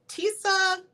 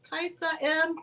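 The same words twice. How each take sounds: First: Tisa said as TEE-suh, asked high and unsure; unsure name reading. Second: Tisa said as TIE-sah, still high; retry Tisa as TIE-sah, then the letter M; second try at the name. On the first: Host testing a viewer's name aloud, unsure. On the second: Host retrying a viewer's name, a bit unsure. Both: Real, not acted. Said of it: "I wanna make sure I'm saying your name right".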